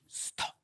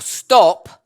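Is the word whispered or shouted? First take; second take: whispered; shouted. First: The word is whispered quietly. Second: The word is shouted loudly.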